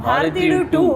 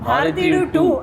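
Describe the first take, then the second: First: The title is said with proud, forceful emphasis. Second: The title is said with proud, forceful emphasis.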